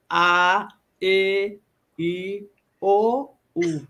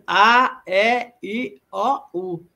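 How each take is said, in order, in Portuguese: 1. As vogais são pronunciadas de forma mais fechada. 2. As vogais são pronunciadas de forma mais aberta. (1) "a pronúncia já se torna um pouco mais fechada" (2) "o A em português"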